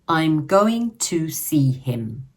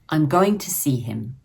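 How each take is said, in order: First: Each word is said separately and in full. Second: The words are reduced and linked together smoothly. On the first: "Take this sentence" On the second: "With chunking and linking, we say it more like, ... to becomes t and see him links as see him"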